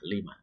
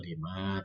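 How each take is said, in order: First: The final vowel is kept short. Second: The final vowel is held long. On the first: The speaker calls it right. "tapi dibaca pendek aja lima" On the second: The speaker calls it wrong. "bukan dibaca lima"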